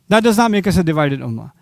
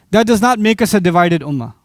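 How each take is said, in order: Both takes have the same delivery.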